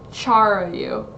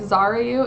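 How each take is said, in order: First: The name begins with a ch sound. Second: The name begins with a z sound. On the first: "or is it like Charayu?" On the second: "Is the X pronounced like a Z"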